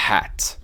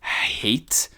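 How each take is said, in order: First: HAT with open "aeh" and crisp T; short-vowel hat. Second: HATE with an "ay" glide; long-A hate. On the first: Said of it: "Se não tivesse E no final". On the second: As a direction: say HATE carefully, silent final E. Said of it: "isso é Shane". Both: Shown as a demonstration.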